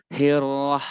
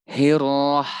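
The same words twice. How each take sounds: The two takes are said the same way.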